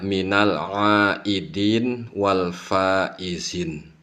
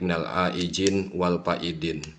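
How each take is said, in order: First: The last word has a z sound in it. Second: The last word has a d sound in it. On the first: The speaker calls it right. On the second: The speaker calls it wrong. "ada yang dibalik"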